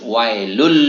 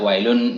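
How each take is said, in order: First: The n sound merges into an l sound. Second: The word ends with a clear n sound. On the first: The speaker calls it right. "Tapi harus wailul" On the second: The speaker calls it wrong. "kita tidak boleh membaca wailun, tidak boleh"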